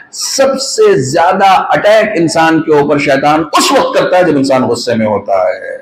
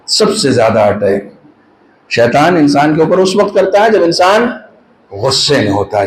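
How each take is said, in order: First: Grave, slow sermon line; slow emphatic statement. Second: Lower, hushed restatement; low repeat. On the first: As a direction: lay each word down slowly. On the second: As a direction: say it again down low so it sinks in. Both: Shown as a demonstration. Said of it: "repeats the line".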